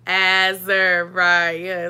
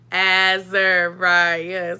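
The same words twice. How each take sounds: First: The name is said in an overdone, exaggerated way. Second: The same.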